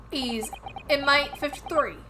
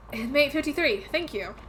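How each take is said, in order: First: Put-on slow "He's inmate fifty-three" in a shaky British accent, "inmate" falling; attempted British accent. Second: Put-on "Inmate fifty-three" in a relaxed American Southern accent. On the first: Player voicing the game's detective in a wobbly British accent. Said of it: "when I try to do a British accent". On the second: Player redoing the detective's line, now in a Southern accent. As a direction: give it a Southern twang, falling on "fifty-three". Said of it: "made everyone very southern instead of British".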